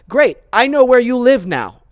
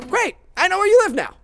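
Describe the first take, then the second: First: It is said plainly, without a smile. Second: It is said warmly, with a smile.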